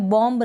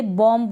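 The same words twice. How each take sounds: First: बॉम्ब ending in a sounded B; wrong pronunciation. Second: बॉम्ब ending on M, silent B; correct pronunciation. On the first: Teacher showing what not to say, बॉम्ब with final B. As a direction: release a B after the M in बॉम्ब. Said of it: "बॉम्ब ना बोले". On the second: Teacher giving the right form, बॉम्ब said "bom". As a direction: stop at the M in बॉम्ब, no B. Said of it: "बॉम्ब बोलेंगे". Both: Shown as a demonstration.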